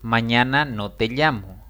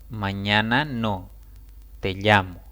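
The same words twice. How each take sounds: First: It is said without a pause after no. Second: It is said with a pause after no.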